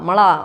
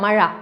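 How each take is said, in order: First: The middle consonant is a plain l sound. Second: The middle consonant is a retroflex zh sound.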